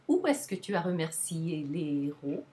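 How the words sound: The question word is pitched high, then falls. "the interrogative content word will have the higher pitch"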